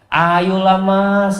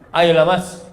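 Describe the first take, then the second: First: The voice is soft, sweet and coaxing. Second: The voice is plain, firm and businesslike. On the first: She is flirting to get a better price. The speaker calls it wrong. "melemah lembutkan suaranya ... nggak ada kayak gitu" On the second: She is simply bargaining. The speaker calls it right. "yang tegas"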